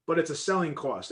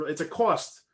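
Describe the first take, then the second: First: Selling stressed, falling at the end. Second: Said in the usual way. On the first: Shown as a demonstration. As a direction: lean into the word selling.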